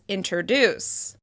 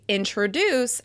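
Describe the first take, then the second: First: A vowel comes before the R sound. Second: The R comes directly after the T sound.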